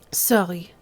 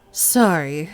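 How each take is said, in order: First: Put-on Sorry said as sɑli, r turned to l in the wrong accent. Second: Sorry said as sɑɹi with a clear r and a rising end; corrected accent. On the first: Speaker apologises to the lieutenant in the wrong accent. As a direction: slip into the other character's accent on Sorry. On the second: Acted. Speaker apologises again to the lieutenant in the right accent. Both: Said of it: "Oops, wrong accent".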